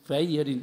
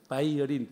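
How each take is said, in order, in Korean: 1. 이 단어는 V 소리로 시작합니다. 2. 이 단어는 V 소리로 시작합니다.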